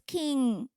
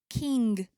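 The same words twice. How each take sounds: First: The final G is soft, barely pronounced. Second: The final G is pronounced hard and strong. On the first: This is how other people say it should be said. "and they say it's king" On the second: This is how the speaker personally says it. "So I say king"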